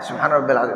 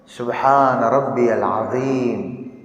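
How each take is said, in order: First: It is said fast and rushed. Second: It is said slowly and carefully.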